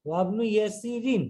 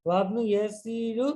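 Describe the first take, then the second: First: ইয়াসিরিন ending in -in, falling; ওয়াবনু ইয়াসিরিন, the fixed form; correct ending. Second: ইয়াসিরু said with a wrong u ending, slowly; ওয়াবনু ইয়াসিরু, then correct it; deliberate wrong ending. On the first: (সঠিক উচ্চারণ ইয়াসিরিন) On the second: (ভুল উচ্চারণ ইয়াসিরু) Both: Shown as a demonstration. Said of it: "না".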